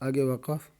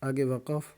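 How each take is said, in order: The two takes are said the same way.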